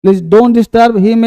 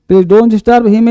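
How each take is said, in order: First: Very slow, every word stretched; slow demo. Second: Said in the usual way. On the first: Shown as a demonstration. Teacher spelling out the sentence for students, very slowly. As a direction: read it slowly so the class can follow. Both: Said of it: "ठीक है बच्चे".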